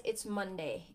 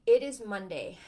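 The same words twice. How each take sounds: First: Said in the usual way. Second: "It is Monday" louder, each word hit firmly; emphatic restatement. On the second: Shown as a demonstration. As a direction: punch "It is Monday" as if announcing it.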